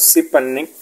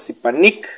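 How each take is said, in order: First: Sipanik with a loose last i, close to nek; relaxed I. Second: Sipanik with a tense, clear ee in the last syllable; strong I. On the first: Teacher shows the contrast, sipanik with relaxed I. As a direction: slacken the final vowel of sipanik toward e. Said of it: "esa es la I relajada". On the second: Teacher shows the contrast, sipanik with strong I. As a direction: make the final i of sipanik a tight ee. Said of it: "la I fuerte". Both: Shown as a demonstration.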